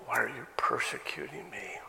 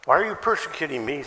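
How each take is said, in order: First: Whispered, breathy question, low and soft; hushed quote. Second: Faster, louder, pressing question; urgent question. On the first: Acted. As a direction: whisper it like a voice from nowhere. God's voice quoted to Saul. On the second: Shown as a demonstration. Quote repeated urgently.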